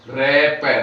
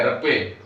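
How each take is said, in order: First: रे पे said as two separate syllables; रे पे split into two distinct beats; slow spelled syllables. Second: रपे said as one smooth word; रपे run together as a single word; joined syllables. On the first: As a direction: spell out रे then पे, one at a time. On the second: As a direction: blend रे and पे into रपे. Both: Shown as a demonstration. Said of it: "रे का उच्चारण पहले करना है".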